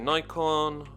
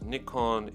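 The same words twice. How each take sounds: First: The name is said the common non-Japanese way. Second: The name is said the Japanese way. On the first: "I know some people say Nikon" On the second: "it's pronounced Nikon in Japan"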